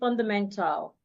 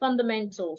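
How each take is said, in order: First: The last syllable has a full A vowel. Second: The last syllable has a reduced, unheard vowel. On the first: The speaker calls it wrong. "you don't say fundamental" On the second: The speaker calls it right. "The letter A before the L should be made silent"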